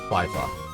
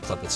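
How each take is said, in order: First: The first vowel is a long i. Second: The first vowel is a short i. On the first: The speaker calls it right. "Long eye" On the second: The speaker calls it wrong. "I wasn't even close"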